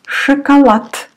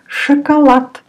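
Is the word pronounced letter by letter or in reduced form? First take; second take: reduced; reduced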